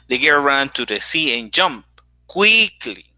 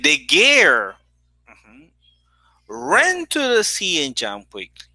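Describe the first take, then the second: First: The word quickly carries the main stress. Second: The word girl carries the main stress. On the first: She jumped quickly, not in another way. "not in another way. She did it quickly" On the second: It was that girl, not another person. "Here the stress is on girl"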